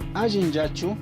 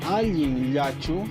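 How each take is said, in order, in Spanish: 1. La frase se dice a velocidad normal. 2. La frase se dice despacio y con calma.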